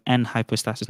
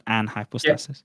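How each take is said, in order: First: "an" said with an E sound, like "en"; first vowel as E. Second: "an" said with an open A, as in "ant"; first vowel as A. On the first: Debater correcting his opponent on the term, "an" said as "en". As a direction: pronounce "an" as "en" before "hypostasis". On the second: Debater showing the opponent what it isn't, "an" said with an A. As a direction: show the mistaken "an", with A instead of E. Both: Shown as a demonstration. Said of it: "with an E".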